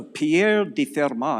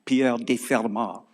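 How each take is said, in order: First: Slow, lightly French-accented Pierre de Fermat; name drawn out in mild French style. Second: Slow, hammed-up French accent; American lecturer's playful French accent. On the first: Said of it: "say that with a French accent". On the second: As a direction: say Pierre de Fermat in a put-on French accent. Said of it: "with a French accent and wear a beret". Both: Shown as a demonstration.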